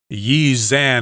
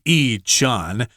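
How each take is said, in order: First: The second syllable begins with a z sound. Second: The second syllable begins without a z sound. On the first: It is how a foreigner might read it. The speaker calls it wrong. "don't be surprised if you hear a foreigner say Yi Zan" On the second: It is how locals say it. The speaker calls it right. "we know the pronunciation will be Yi Chan"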